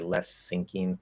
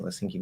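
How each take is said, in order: First: The phrase is said slowly, with an s sound. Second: The phrase is said quickly, sounds run together. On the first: The speaker calls it wrong. "if you're speaking more slowly and you're enunciating, ... it sounds very bad" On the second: The speaker calls it right. "If you're speaking fast enough, yes, it sounds okay"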